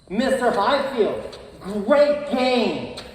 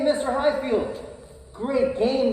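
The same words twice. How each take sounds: First: It is said in a cold, unfriendly tone. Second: It is said in a warm, friendly tone. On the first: The praise is not meant and feels hurtful. The speaker calls it wrong. "I said it in a different tone" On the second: The praise is sincere. The speaker calls it right. "hey, Mister Highfield, great game the other day"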